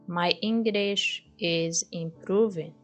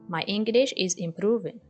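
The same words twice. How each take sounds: First: The sentence is said at a normal pace. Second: The sentence is said at a faster pace.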